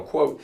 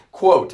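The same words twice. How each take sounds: First: Said in the usual way. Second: "quote" hit hard, high and loud; forceful, raised stress on "quote"; emphasized QUOTE. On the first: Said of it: "and I emphasize, quote". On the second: Real, not acted. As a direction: punch the word "quote". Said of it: "and I emphasize".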